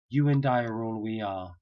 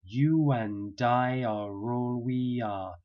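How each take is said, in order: First: Said in the usual way. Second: "You and I are all we are" slowly with w, y and r links; slow linked phrase. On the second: Shown as a demonstration. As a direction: link every word, very slowly. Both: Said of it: "the whole phrase now is like this".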